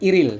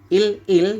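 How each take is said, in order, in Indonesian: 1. Dua suku kata itu disambung dengan bunyi r. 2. Dua suku kata itu diucapkan terpisah.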